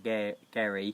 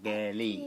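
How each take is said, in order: First: The middle consonant is an English-style R. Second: The middle consonant sounds close to an L. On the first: The speaker calls it wrong. "it's not Gary" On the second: The speaker calls it right. "you do the E as an A and the R as an L"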